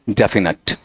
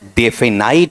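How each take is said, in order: First: The last syllable sounds like 'nut'. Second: The last syllable sounds like 'night'. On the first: The speaker calls it right. "नेट भी नहीं, नट" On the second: The speaker calls it wrong. "वो भी क्या है, गलत"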